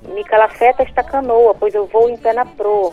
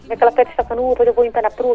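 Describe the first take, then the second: First: The phrase is spoken at a normal pace. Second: The phrase is spoken very quickly.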